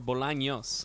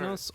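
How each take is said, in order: First: The middle consonant is an ny sound. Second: The middle consonant is a plain n sound. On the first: The speaker calls it right. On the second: The speaker calls it wrong.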